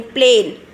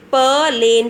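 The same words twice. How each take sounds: First: Said in the usual way. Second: "Plane" broken into "puh" and "lane"; sounded out. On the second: Shown as a demonstration. Teacher pronouncing once again, "Plane" sounded out as puh-lane. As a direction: split "Plane" after the first sound. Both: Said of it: "So I'll pronounce once again".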